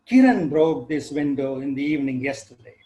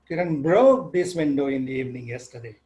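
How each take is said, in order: First: The stress falls on the first word. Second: The stress falls on the second word. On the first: "So the focus is on the breaker" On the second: "move the stress from the first word to the second one"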